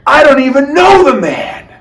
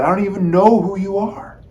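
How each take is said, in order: First: High, loud, panicked denial; Peter's frightened denial. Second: Said in the usual way. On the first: Acted. Peter to the girl by the fire, high loud denial. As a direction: blurt it out to get the girl off your back. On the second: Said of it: "He had said".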